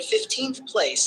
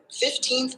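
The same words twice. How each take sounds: First: Slow "fifteenth place", stressed on FIF; stress on first syllable. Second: Put-on "fifteenth" with the stress on TEENTH; stress on second syllable. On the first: Tutor summing up the shift, "fifteenth place" stressed on FIF. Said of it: "the stress shifts to the first syllable". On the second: Tutor summing up for the student, "fifteenth" stressed on TEENTH. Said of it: "is stressed on the second syllable". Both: Shown as a demonstration.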